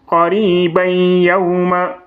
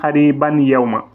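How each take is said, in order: First: The n merges nasally into the following y. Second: The n is pronounced clearly before the y. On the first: The speaker calls it right. "C'est comme ça" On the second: The speaker calls it wrong. "Il ne faut pas dire Qariban Yawma. Ça, c'est une erreur"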